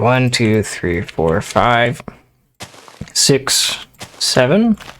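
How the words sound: It ends with a rising, questioning tune.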